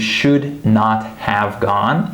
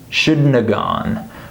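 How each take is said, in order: First: Every word of the phrase is pronounced separately. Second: The phrase is squeezed into a short 'shouldna' form. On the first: "I'm saying you should not have gone" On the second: "I would uh, shorten it to shouldna"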